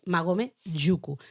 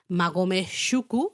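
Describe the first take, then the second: First: The last word begins with a j sound. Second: The last word begins with a sh sound. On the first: The speaker calls it right. "es magome yuku" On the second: The speaker calls it wrong. "No es magome shuku"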